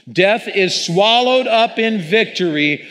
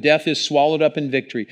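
First: "Death is swallowed up in victory" proclaimed high, loud and slow; strong preacher voice. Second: Said in the usual way. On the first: Real, not acted. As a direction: proclaim it like a fist in the air, defiant. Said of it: "let's read it out loud and loud". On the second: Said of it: "I want you to read out loud, strong voice".

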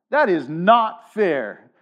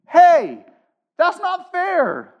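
First: Said in the usual way. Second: High whiny protest; nasal whine. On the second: Retold or imitated. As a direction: whine it like a sulky kid. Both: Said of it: "I could see it in your faces".

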